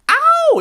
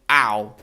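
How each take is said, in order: First: The 'ow' is said loudly. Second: The 'ow' is said quietly. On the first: This is not how it sounds in the performance. "It's not like ow" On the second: This is how it sounds in the performance. "It's not really loud"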